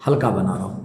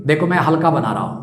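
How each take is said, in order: First: Lower, softer, easing the voice down; light and soft. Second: Said in the usual way. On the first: Shown as a demonstration. Teacher showing students a light stroke, said low and soft. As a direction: say it lightly, as if drawing a faint line.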